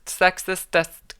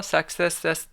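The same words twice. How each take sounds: First: Sexistest drawn out slowly and a bit louder; slow deliberate sexistest. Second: Said in the usual way. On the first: Shown as a demonstration. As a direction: sound out sexistest carefully, syllable by syllable. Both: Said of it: "you don't ever actually have to say it".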